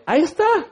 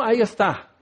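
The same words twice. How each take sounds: First: "está" thrown up much higher in mock annoyance; "ahí está" pitched way up, exasperated; ahí está jumps high. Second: Said in the usual way. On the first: Shown as a demonstration. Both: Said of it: "Pero cuando no quiero que me estorbe".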